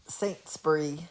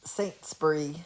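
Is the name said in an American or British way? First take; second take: British; British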